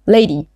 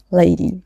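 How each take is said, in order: First: Cool policeman addressing a driver. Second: Measured, slowly spoken address. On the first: Policeman to Maud at the car window, coolly. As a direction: say it coolly, with little emotion. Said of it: "he said coolly". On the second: Policeman baffled by Maud, slowly. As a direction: draw the word out a little. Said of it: "he said slowly". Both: A narrator's reading.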